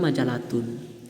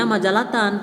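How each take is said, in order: First: The word ends with a u vowel. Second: The word ends with an a vowel. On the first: The speaker calls it wrong. "tidak juga majalatun" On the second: The speaker calls it right. "Dibacanya majalatan"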